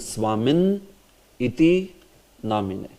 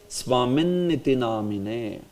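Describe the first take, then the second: First: Swamin and Iti are split with a break. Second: Swamin and Iti are joined without a break. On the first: The speaker calls it wrong. "Instead of saying" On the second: The speaker calls it right. "this is pronounced together only"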